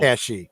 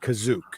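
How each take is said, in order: First: The name is said like 'Kashyyyk'. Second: The name is said like 'Kazook'. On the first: This is the later established name. "not Kashyyyk" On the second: The name was not yet fixed. "he said Kazook"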